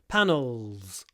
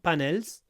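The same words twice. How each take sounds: First: The final L is dark, from the throat. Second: The final L is light and clear. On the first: The speaker calls it right. "try to get this dark l" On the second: The speaker calls it wrong. "not panels"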